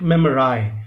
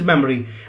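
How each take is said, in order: First: The final syllable ends in an 'eye' sound. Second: The final syllable ends in an 'ee' sound. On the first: It is adjusted to rhyme with the word die. "because the word ... is die, so we should pronounce it memorize" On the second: This is the ordinary everyday pronunciation. "memory's real pronunciation is memory"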